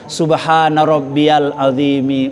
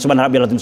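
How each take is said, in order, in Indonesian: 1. Frasa ini dibaca dengan lambat dan tenang. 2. Frasa ini dibaca dengan cepat dan tergesa-gesa. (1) "Ya pelan-pelan" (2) "jangan cepet-cepet"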